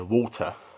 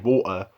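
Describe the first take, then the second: First: The T is pronounced, in Multicultural London English. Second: The T is dropped, in the speaker's London accent.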